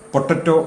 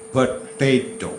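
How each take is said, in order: First: The second vowel is a short 'a' sound. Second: The second vowel is a long 'ay' sound. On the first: The speaker calls it wrong. "പൊട്ടറ്റോ എന്നല്ല അതിൻ്റെ ഉച്ചാരണം" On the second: The speaker calls it right. "പ ടേറ്റോ"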